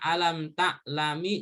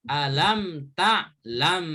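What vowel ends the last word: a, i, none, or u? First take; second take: i; none. First: The last word ends with an i vowel. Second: The last word ends on m, with no vowel. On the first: The speaker calls it wrong. "Dibaca alam ta'lami juga nggak boleh" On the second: The speaker calls it right. "Jadi harus harokat sukun"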